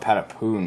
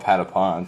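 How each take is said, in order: First: The last syllable has a long oo vowel. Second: The last syllable has a short o vowel. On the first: This is how some other people say it. "Some people call it Patapoon" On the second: This is how the speaker says it. "there's no double O effect ... I call it Patapon"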